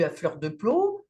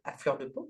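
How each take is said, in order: First: «peau» prononcé de travers, comme «plo»; mauvaise prononciation. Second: «peau» bien dit, «po», plus doucement; prononciation corrigée. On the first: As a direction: lapsus sur «peau», dit «plo». («à fleur de peau» écorché, «peau» dit «plo») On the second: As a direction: se reprendre et dire «peau» correctement. («à fleur de peau» repris avec un «peau» net) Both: Real, not acted.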